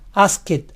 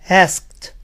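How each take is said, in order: First: The ending is an extra syllable. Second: The ending is a plain t sound. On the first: The speaker calls it wrong. "ni se les ocurra decir" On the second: The speaker calls it right. "Siempre debe ser"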